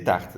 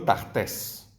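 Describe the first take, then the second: First: The final s is silent. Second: The final s is pronounced. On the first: The speaker calls it right. "la S final no se pronuncia" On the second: The speaker calls it wrong. "no tartes"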